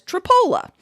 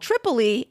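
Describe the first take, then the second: First: The name ends in an uh sound. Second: The name ends in an ee sound. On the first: "as Tripola" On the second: "what many English speakers would call Tripoli"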